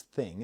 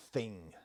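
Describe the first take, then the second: First: Said in the usual way. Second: "thing" pronounced "fing"; TH fronting. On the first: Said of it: "I know it means thing". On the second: Shown as a demonstration. Asking what this word means, "thing" said as "fing". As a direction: start "thing" with an F instead of TH. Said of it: "replacing T H with F".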